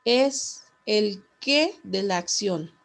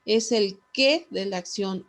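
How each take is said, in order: First: Slow dictation with QUÉ set apart and punched; pause, then hit "qué" harder, drawing out the phrase; stress on qué. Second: Quicker repeat, QUÉ still punched; stress on qué. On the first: Teacher dictates the key word to students, stress on qué. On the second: Teacher repeats so students underline it, stress on qué. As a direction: run the phrase together, leaning on "qué". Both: Real, not acted.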